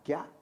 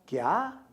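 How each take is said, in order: First: It is said plainly with a flat tune. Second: It is drawn out with a melodic tune.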